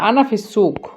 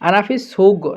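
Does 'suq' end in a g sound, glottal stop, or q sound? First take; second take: q sound; g sound. First: The last word ends with a deep q sound. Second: The last word ends with a hard g sound. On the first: "শুষ্কের সুক ক, এটা হলো ক।" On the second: "গয়ন হিসেবে যদি আমরা ব্যবহার করি তখন বলবো"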